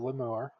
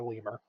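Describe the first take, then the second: First: It is pronounced differently from the animal name. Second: It is pronounced the same as the animal name. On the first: It names a lowly kind of devil. The speaker calls it right. "that's a lemur, L E M U R E. That's lemur" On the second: It names the animal. The speaker calls it wrong. "not a lemur"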